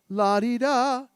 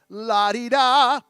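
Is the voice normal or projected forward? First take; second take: normal; projected. First: The voice is relaxed and normal. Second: The voice is pushed forward, projected.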